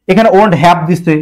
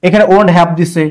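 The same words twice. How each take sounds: The two takes are said the same way.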